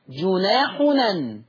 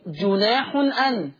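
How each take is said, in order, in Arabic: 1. الهمزة تُحذف والمقطعان يندمجان. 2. الهمزة قبل المقطع الأخير تُنطق. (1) "تقرأ جناحنا" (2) "اللفظ الثاني جناح أن"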